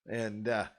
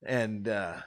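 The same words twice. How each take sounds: The two takes are said the same way.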